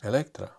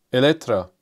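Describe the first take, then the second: First: "Electra" said quietly as e-LEK-tra, trying it out; hushed trial of "Electra"; softer repeat of Electra. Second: "Electra" said firmly as e-LEK-tra with a falling end; pronounced like Electra. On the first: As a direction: repeat "Electra" under the breath, testing it. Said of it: "Like this?". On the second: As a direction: give the car name as "Electra", stress the second syllable. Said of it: "I say it like Electra". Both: Shown as a demonstration.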